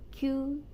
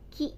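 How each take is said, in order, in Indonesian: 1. Nama huruf itu diucapkan dengan cara Prancis. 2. Nama huruf itu diucapkan dengan cara Indonesia. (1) "in French alphabet" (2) "di Indonesia"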